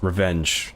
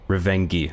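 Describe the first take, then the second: First: The word is said in its standard form. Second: The word is said in a comically distorted form. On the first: The speaker calls it right. "It's revenge, in case that didn't land" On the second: The speaker calls it wrong. "I'm pronouncing it wrong on purpose. For comedic effect"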